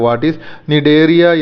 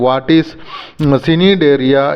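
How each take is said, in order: First: The C at the start is silent. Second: The C at the start is pronounced.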